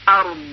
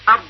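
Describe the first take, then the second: First: The final ض sound is moderate and balanced. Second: The final ض sound is too weak and underdone. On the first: The speaker calls it right. "بلکه به صورت صحیح تلفظ باید بکنیم" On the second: The speaker calls it wrong. "یا بالعکس ارض"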